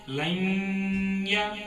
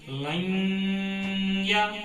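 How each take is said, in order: First: The n sound is kept lightly through the nose. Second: The n sound is kept lightly through the nose.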